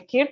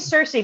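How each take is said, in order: First: The name begins with a hard K sound. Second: The name begins with a soft S sound. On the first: "there's also people who say Kirke, and that's also weird because it's two C's" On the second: "Some people say Cersei, but that's weird because it reminds me of Game of Thrones"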